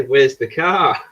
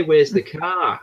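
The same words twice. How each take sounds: First: Said in the usual way. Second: "car" in a New Zealand accent, a little higher; mock New Zealand pronunciation of "car". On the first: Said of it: "And we say". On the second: Shown as a demonstration. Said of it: "they say".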